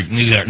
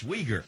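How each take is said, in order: First: "Uyghur" mangled, not "wee-gur"; mock the garbled take of "Uyghur"; wrong pronunciation. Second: "Uyghur" said quietly as "WEE-gur"; correct pronunciation. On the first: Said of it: "No, not Uyghur". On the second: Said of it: "No, not Uyghur. It's". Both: Shown as a demonstration.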